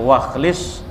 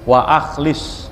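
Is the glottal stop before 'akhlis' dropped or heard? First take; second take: dropped; heard. First: The words run together with no glottal stop. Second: A clear glottal stop separates the two words. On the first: The speaker calls it wrong. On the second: The speaker calls it right. "bukan wakhlis"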